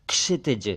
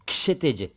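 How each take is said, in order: No difference in how they are said.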